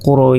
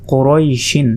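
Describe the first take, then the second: First: কোরইশ with a long-held "oi", ending on bare sh; long, level কোরইশ without the final "in"; elongated waqf stop. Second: Said in the usual way. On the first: Shown as a demonstration. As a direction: stretch the "oi" of কোরইশ, then close on sh. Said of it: "যদি আমরা ওয়াকফ করি". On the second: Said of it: "এখানে যদি আমরা ওয়াকফ করি".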